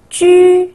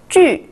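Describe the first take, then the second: First: The pitch stays high and level. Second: The pitch falls sharply from high.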